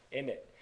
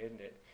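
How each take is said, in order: First: "Isn't it" clipped down to "innit", British slang style. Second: Soft British tag question, "isn't it" in full; British accent. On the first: Vlogger playing up the bloody accent, British "innit". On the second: Vlogger rounding off good fun, British accent. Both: Shown as a demonstration. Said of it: "doing this bloody accent".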